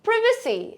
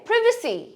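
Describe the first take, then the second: First: It is said with a British accent. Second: The same.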